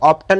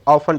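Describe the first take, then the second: First: A t sound is pronounced in the middle. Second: No t sound is pronounced in the middle. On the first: The speaker calls it wrong. "इसको ऑप्टन नहीं पढ़ेंगे" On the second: The speaker calls it right. "ऑफन पढ़ेंगे"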